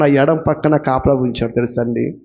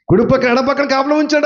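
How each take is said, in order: First: Said in the usual way. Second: కుడి పక్కన, ఎడం పక్కన higher and fast, driven home; emphatic repeat. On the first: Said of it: "first statement, then repeated". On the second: Real, not acted. Preacher repeating to the congregation for emphasis, higher and fast. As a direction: hammer the repeat higher and faster. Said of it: "emphatic repeat of line 145".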